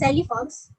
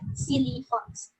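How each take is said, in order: First: The first word sounds like 'sally'. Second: The first word sounds like 'silly'. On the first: The speaker calls it wrong. "It is not pronounced as Sally Fox" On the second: The speaker calls it right. "but Silly Fox"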